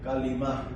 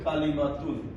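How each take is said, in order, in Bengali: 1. শব্দটি শেষের '-tun' ধ্বনি ছাড়াই শেষ হয়। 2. শব্দটি পূর্ণ '-tun' ধ্বনি দিয়ে শেষ হয়। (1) "বলার সময় এই তাটা হয় মতো উচ্চারণ হয়" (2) "এখন আমরা বলি কালিমা তুন"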